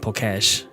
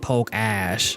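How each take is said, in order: First: The name is said as one blended word. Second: The name is said as two separate parts. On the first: The speaker calls it wrong. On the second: The speaker calls it right.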